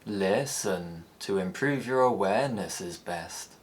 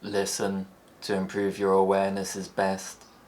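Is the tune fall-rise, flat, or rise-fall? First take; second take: rise-fall; flat. First: The pitch rises then falls on stretched syllables. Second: The pitch stays level in the middle throughout. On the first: "Like the rise fall, syllables are stretched to accommodate the longer tone" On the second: "Flat tones don't change"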